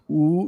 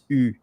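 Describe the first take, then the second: First: The vowel sounds like an English oo. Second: The vowel is a French u sound. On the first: The speaker calls it wrong. "the way that most of English people are pronouncing the U, but the U is not U" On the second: The speaker calls it right. "it's U"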